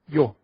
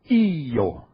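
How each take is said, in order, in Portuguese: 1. O y desliza para o o como uma sílaba só. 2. O i e o formam duas sílabas separadas. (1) "É um fonema só" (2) "você estaria separando a sílaba"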